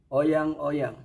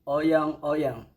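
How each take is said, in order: First: The word is said with a Y sound. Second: The same.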